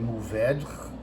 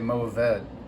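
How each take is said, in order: First: The word is said with a French pronunciation. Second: The word is said with an American pronunciation. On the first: "like the French. Don't do that" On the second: "In California, we say"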